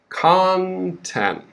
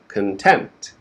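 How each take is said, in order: First: The stress is on the first syllable. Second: The stress is on the second syllable. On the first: It means the material in a book or report. "the stress is on the first syllable" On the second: It means feeling satisfied or happy. "quick beginning, stress the second syllable"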